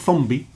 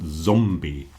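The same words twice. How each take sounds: First: The word begins with a th sound. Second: The word begins with a z sound. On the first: The speaker calls it wrong. "not zombie" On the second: The speaker calls it right. "but zombie"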